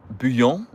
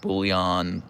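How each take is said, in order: First: "bouillon" as boo-YOHN, no l; "bouillon" with a nasal French ending, questioning; French pronunciation. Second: "bouillon" as BOOL-yahn, l sounded; "bouillon" drawn out as bool-yahn; anglicised pronunciation. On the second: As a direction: say "bouillon" with an English l. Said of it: "if she'll say". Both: Shown as a demonstration.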